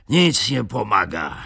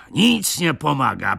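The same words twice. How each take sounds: First: Breathless, moderately high grumble; winded, resigned grumble; panting complaint. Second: Higher, breathless echo of the grumble; winded, pitched-up exasperation; higher exasperated repeat. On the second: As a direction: throw up your hands again. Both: A narrator's reading. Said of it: "mówił przerywanym głosem, sapiąc".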